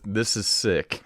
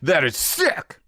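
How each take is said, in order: First: It is said flatly, without excitement. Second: It is said with lively excitement.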